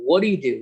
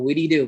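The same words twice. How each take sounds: First: "what do you do" run together fast as "whaddaya do"; fast native-speaker reduction of "what do you do"; reduced form. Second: Said in the usual way. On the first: Shown as a demonstration. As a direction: blur "what do you do" into one quick reduced chunk. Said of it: "reduced form of the word". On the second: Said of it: "because of the reduced form itself".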